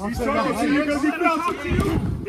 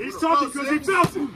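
First: Said in the usual way. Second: Fast excited shout. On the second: Real, not acted. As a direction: yell it out quickly, fired up. Coach repeats line louder.

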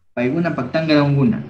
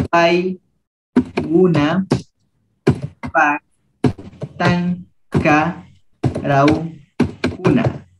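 First: Paiguna Paktanga Rauguna said briskly at full pace; brisk normal-speed repeat; quick run-through. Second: Sería Paiguna Paktanga Rauguna drawn out syllable by syllable; slow teacher model; slow model reading. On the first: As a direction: rattle it off once they have it. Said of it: "repeats at normal speed". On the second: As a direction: spell it out slowly for the class. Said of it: "teacher models slowly". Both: Shown as a demonstration.

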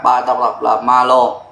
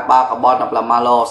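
First: Slow naming. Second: Said in the usual way. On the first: Shown as a demonstration.

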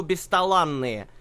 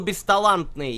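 First: "бесталанные" drawn out slowly, no T; correct form without T. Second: "бесталантные" with a T sounded after the N; wrong form with T. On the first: Correcting a co-caster's word, slowly showing "бесталанные" without T. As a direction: slowly stretch "бесталанные", leaving out the T. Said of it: "есть слово". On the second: Correcting a co-caster's word, showing the wrong "бесталантные" with its T. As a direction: pronounce the T in "бесталантные". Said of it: "и нет слова". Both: Shown as a demonstration.

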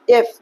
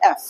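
First: এফ with a narrow "ye" vowel; local-style এফ, vowel kept tight; old habitual pronunciation. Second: এফ with an open "ae" vowel; corrected pronunciation. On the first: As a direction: say এফ the Bangla way, closed "e". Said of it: "এফ বলতাম আগে". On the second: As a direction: open up the vowel of এফ, English style. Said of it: "আসলে এটা হবে এফ". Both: Shown as a demonstration.

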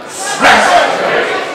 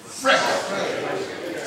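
First: Loud, emphatic shout of one word; like you mean it. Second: Said in the usual way. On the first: Shown as a demonstration. Preacher leads congregation in repeating the word, forceful shout. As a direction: belt it out like you've been there. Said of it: "Say it like you mean it. Say it like you've been there". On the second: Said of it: "Say it again".

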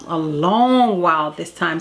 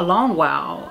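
First: "long" drawn out slowly; stress on long. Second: Said in the usual way. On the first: Real, not acted. Mother stressing how long her son stayed home, "long" drawn out. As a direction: stretch out the word "long".

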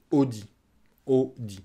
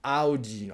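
First: Audi as "oh-dee"; a pure "o" to start Audi; French pronunciation. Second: Audi as "ah-oo-dee"; English pronunciation. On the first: Teacher shows learners the French car name, French pronunciation. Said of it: "à la française". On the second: Teacher echoes the English car name, English pronunciation. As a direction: open Audi on "ow". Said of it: "Audi en anglais". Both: Shown as a demonstration.

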